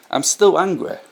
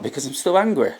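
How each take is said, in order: First: I'm still angry said higher, stress on still; insistent repeat, still stressed high; emphatic repeat. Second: Said in the usual way. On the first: Real, not acted. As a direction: lift the voice and punch still. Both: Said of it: "repeats the words with more force".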